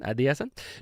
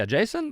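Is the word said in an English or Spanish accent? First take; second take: Spanish; English. First: It is said in a Spanish accent. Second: It is said in a plain English accent. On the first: "you say it in a Spanish accent" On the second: "you were trying to say adjacent"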